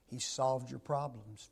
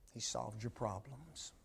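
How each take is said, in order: First: Said in the usual way. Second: Much softer hushed echo of "He solved your problems"; quiet repeat. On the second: Acted. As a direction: let the repeat fall soft and intimate.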